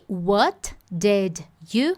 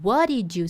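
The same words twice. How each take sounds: First: Each word is pronounced separately and clearly. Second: The words run together in a reduced form. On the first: "Eu poderia ter separado ele aqui" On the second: "esse what did you acabou ficando what did you"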